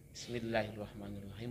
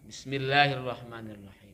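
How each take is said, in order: First: It is said softly, under the breath. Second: It is said aloud and drawn out.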